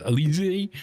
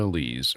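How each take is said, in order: First: Elise with an added final "ee", eh-LEE-zee; alternative pronunciation. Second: Said in the usual way. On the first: Real, not acted. Host unsure of the partner's surname, Elise pronounced eh-LEE-zee. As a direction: try Elise as three syllables ending in a higher "zee". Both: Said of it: "however you wanna say it".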